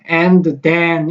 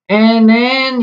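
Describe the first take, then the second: First: The two words are separated by a pause. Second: The words merge into one short nasal sound. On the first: "and, then 이렇게 해주면 상당히 고마운데 그렇게 하지를 않아요" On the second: "어떻게 읽히냐면 nn 이렇게 되는 거예요"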